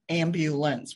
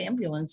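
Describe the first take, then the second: First: The word is said slowly with every syllable clear. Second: The word is said quickly and slurred together. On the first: The speaker calls it right. "that takes longer" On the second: The speaker calls it wrong. "I was saying it fast"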